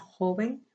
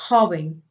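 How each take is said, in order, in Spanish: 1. La j es un sonido suave, como una h aspirada. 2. La j es un sonido áspero, raspante, de garganta. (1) "hacemos esa J joven más suave" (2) "Así habla el, el español"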